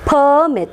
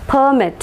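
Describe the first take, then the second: First: The stress is on the first syllable. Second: The stress is on the first syllable.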